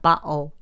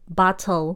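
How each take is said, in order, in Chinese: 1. t 音被省略。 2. t 音被发出。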